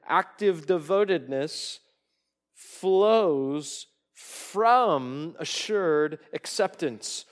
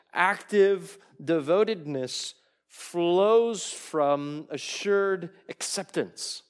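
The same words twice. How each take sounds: First: Dragged out, louder, stretching flows from assured; slower emphatic rereading. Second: Slow, weighty quotation, each word leaned on; emphatic slow reading. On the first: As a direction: stretch the line out for weight. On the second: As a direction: read it slowly, pressing every word. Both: Shown as a demonstration. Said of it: "I'll read it again".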